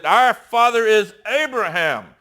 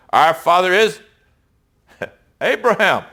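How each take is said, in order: First: A touch of mock anger, pitched up; mildly indignant. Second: Said in the usual way. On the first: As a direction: replay the line as if the crowd is getting mad. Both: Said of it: "Now they're getting mad".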